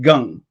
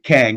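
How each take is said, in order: First: The name is said with a Korean pronunciation. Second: The name is said with an American pronunciation. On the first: "in Korean it's pronounced Gung" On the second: "Americans usually pronounce it Kang"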